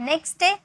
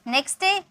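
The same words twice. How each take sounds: The two takes are said the same way.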